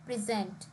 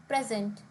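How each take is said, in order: First: "present" as the verb pre-ZENT; "present" with weight on its second syllable; stress on last syllable. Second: "present" as the noun PRE-zent; "present" with weight up front, falling after; stress on first syllable. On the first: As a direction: lean on the end of "present": pri-ZENT. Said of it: "on the last syllable". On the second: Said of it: "would have stress on the first syllable". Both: Shown as a demonstration.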